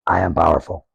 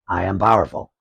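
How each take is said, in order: First: It sounds weak and low in energy. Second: It sounds strong and full of energy.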